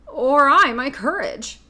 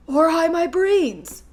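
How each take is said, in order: First: Slow, loud lion lament; lion asking mournfully, drawn out; Cowardly Lion voice. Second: High, slow tearful wail. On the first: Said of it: "asked the lion". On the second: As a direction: wail it, wiping tears away. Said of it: "wailed the Scarecrow". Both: A narrator's reading.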